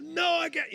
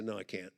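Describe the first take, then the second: First: High-pitched wailing protest; hammed-up high protest; mock desperate refusal. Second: Very low, soft protest; mock-defeated, dropping right down; worn-out refusal. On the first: Retold refusal, argument escalating. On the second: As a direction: act too drained to argue. Retold exhausted refusal.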